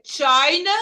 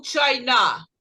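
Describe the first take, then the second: First: "China" with a strong first syllable, CHI-na; stress on first syllable. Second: "China" wrongly stressed at the end, chi-NA; slow "China", leaning on the final syllable; stress on last syllable. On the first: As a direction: punch the start of "China", let the end drop. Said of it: "a primeira sílaba vai ser a sílaba mais forte". ("China" com a primeira sílaba forte, CHI-na) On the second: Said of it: "você fica assim". ("China" com a última sílaba forte, chai-NÁ) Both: Shown as a demonstration.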